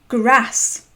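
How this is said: The vowel is short and harsh. "and grass"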